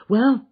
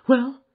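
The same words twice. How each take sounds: First: High, loud and rising; eager cry. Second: High, loud urgent question; eager cry. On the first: Wife crying out again for news of her husband. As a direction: press again for an answer. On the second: Wife crying out eagerly to the arriving detective. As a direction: cry out for news. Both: Acted. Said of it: "she cried".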